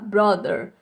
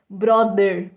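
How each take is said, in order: First: It is said with an English pronunciation. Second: It is said with a Brazilian Portuguese pronunciation. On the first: The speaker calls it right. "a gente se pronuncia como brother" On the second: The speaker calls it wrong. "Não dessa forma mais, né? Brother, como a gente"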